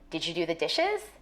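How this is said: The voice rises at the end.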